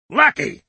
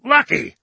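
First: Higher, louder furious exclamation; indignant outburst; angry cry. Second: Much higher, loud outraged repeat; fury rising past control; escalated angry cry. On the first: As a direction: hurl the word back. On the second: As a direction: shriek it back louder. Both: A narrator's reading. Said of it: "cried angry Dickinson".

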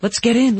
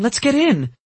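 First: Excited. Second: Even higher, urgent eager; more excited. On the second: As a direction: push it higher, impatient. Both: A narrator's reading. Eager repetition.

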